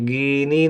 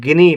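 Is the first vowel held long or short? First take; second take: long; short. First: The first vowel is held long. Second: The first vowel is held short. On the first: The speaker calls it wrong. "गिनी नहीं पढ़ेंगे" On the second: The speaker calls it right. "छोटी की मात्रा का उच्चारण कम देर के लिए"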